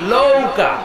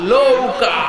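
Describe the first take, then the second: First: The word begins with an L sound. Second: The same.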